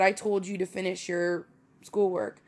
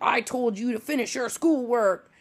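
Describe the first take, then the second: First: It sounds like the speaker's own natural delivery. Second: It sounds like an old grandmother scolding. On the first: "But I said that. I said" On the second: "I didn't say it like that. Like, that sounds very, like I'm somebody's grandma"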